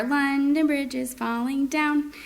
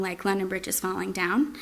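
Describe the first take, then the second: First: Sung, London Bridge melody, higher and slow; sung to the tune. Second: Said in the usual way. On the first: Shown as a demonstration. Parent chanting the nursery tune while jumping with child. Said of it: "I may use that intonation". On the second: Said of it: "a certain song".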